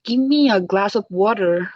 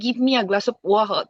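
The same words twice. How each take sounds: First: It has an American accent with the r sounded. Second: It has a British accent without the r sound. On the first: "but আমেরিকানরা করে" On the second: "ব্রিটিশরা হচ্ছে আর বলে না"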